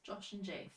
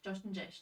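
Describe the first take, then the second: First: It is said at normal speed. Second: It is said very fast.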